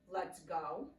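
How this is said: It is said in a neutral, slow tone.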